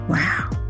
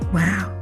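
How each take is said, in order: First: It sounds confused or frustrated. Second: It sounds unsure, at a loss for words.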